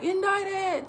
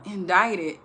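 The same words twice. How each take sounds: First: Indicted thrown up high in a mock panic; Jim Carrey's Indicted. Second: Said in the usual way. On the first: Mother starting the morning joke for her daughter, mock panic. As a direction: copy the movie's frantic cry. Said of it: "I would say it the way he said it". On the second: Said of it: "I would yell".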